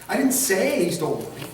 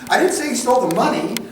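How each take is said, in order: First: The word 'say' carries the main stress. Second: The word 'money' carries the main stress. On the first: It was implied rather than said. "how did you imply it?" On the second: He stole something else. "What did he steal?"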